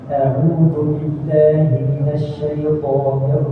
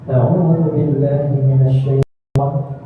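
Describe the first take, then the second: First: The vowels are exaggerated and clearly articulated. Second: The vowels are incompletely formed and unclear. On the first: The speaker calls it right. "takaluf atau berlebihan" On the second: The speaker calls it wrong. "vokal yang tidak sempurna"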